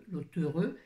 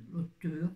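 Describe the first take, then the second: No difference in how they are said.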